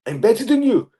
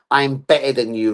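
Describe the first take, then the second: First: Higher-pitched, put-on boast; mock boast. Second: Said in the usual way. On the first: Player taunting the haters, mock boast. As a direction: brag it in a raised voice. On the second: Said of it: "written on a fucking arm".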